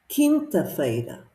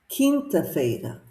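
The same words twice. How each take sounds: Both takes have the same delivery.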